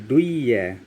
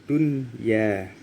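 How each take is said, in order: First: The n sound is dropped and merged away. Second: The n sound is clearly heard before y. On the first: The speaker calls it wrong. "bukan duya" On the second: The speaker calls it right. "dibaca jelas tanpa lebur"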